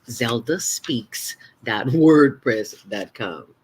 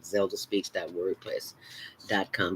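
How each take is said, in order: First: It is said slowly. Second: It is said fast.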